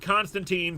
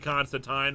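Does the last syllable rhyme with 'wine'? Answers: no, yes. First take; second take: no; yes. First: The last syllable does not rhyme with wine. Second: The last syllable rhymes with wine. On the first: This is the common Western pronunciation. The speaker calls it wrong. "the West has always pronounced it Constantine" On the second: This is the official pronunciation. The speaker calls it right. "it's officially Constantine. Rhymes with wine"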